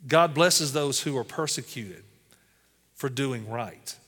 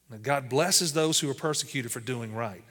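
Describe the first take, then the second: First: Slow scripture reading. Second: Said in the usual way. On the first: Acted. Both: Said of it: "Listen to Matthew five ten".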